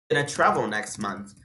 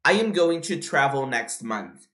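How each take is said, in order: First: "gonna" run together, pitched low; reduced form. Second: "going to" unreduced, slow; full form. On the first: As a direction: squeeze "going to" into "gonna". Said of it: "Tá vendo como eu reduzi?". ("gonna" reduzido e juntado, em tom grave) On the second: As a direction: say every word of "I am going to". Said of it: "Ao invés de falar". ("going to" completo, devagar) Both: Shown as a demonstration.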